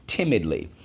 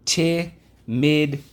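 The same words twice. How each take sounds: First: Said in the usual way. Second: High, slow stretched timidly; drawn-out timidly. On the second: Shown as a demonstration. Teacher modelling the word for the class, stretched out. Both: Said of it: "Let's go".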